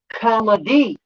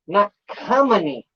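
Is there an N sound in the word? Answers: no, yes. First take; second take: no; yes. First: The word is said without any N sound. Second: The word is said with an added N sound. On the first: The speaker calls it right. "It's C O M E D Y" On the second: The speaker calls it wrong. "where is there an N in comedy?"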